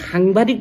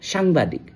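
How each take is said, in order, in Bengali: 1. প্রথম ধ্বনিটি একটি শ্বাসযুক্ত h-এর মতো ধ্বনি। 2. প্রথম ধ্বনিতে h-এর মতো শ্বাসের ভাব নেই। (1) "তেওঁলোকে সাংবাদিক বুলি ক'ব নোৱাৰে" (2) "তেওঁলোকৰ হটো নুফুটে"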